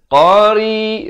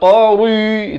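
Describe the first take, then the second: First: The r sound is light and thin. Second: The r sound is heavy and thick. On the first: The speaker calls it right. "ri jadi nipis" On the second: The speaker calls it wrong. "Jangan baca qari, itu tebal"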